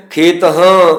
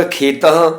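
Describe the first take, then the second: First: "ਖੇਤ ਹਾਂ" split in two, final ਹਾ said in full; wrong pronunciation. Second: "ਖੇਤਾਂ" as one word, the final ਹਾ barely sounded; "ਖੇਤਾਂ" said smoothly as if the ਹਾ were not written; correct pronunciation. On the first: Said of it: "ਖੇਤ ਹਾਂ ਪੜ੍ਹਨਾ ਗਲਤ ਹੈ". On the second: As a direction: show the right way, "ਖੇਤਾਂ" with only a half ha. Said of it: "ਹਾ ਅੱਧਾ ਜਿਹਾ ਹਾ ਬੋਲਿਆ ਜਾਏਗਾ". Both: Shown as a demonstration.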